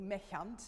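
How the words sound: The word is pronounced the German way.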